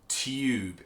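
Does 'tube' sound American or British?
British. It has a British 'tyoob' sound with a glide.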